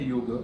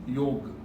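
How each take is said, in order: First: The final vowel is pronounced. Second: The final vowel is silent. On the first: It follows the original classical pronunciation. "if you still want to retain the Sanskrit pronunciation" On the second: It follows modern everyday speech habits. "the final vowel remains uh, unpronounced"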